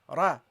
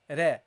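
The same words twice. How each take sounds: First: The r is heavy, with the tongue raised. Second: The r is light, with the tongue not raised. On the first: The speaker calls it right. "the ra with the fatha is pronounced heavily" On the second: The speaker calls it wrong. "you don't say ra, ra"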